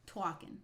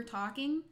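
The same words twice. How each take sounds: First: "Talking" as New York "twawkin"; New York accent. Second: Said in the usual way. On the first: Shown as a demonstration. Streamer showing one she doesn't do, exaggerated New York accent. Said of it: "I don't do that one". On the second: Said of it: "regular talking".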